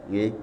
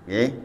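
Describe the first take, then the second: No difference in how they are said.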